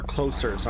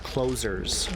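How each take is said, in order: First: "closers" with a hissed s, as in closer meaning nearer; alternative pronunciation. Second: "closers" with a buzzing z sound; pronunciation variant. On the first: Player offering another monster-name reading, "closers" with an s. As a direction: say "closers" as KLOH-serz. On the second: Player unsure of the monsters' name, "closers" with a z. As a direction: say "closers" as KLOH-zerz. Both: Shown as a demonstration. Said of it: "not sure how you're meant to pronounce it".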